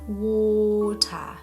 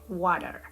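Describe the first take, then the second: First: It is said in a British accent. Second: It is said in a non-British accent. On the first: The speaker calls it right. "sound more like a British person" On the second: The speaker calls it wrong. "not water"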